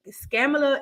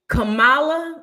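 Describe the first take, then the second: First: The name starts with an added s sound. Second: The name starts with a plain k sound. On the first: The name is twisted to mock her. The speaker calls it wrong. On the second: The name is said properly. The speaker calls it right.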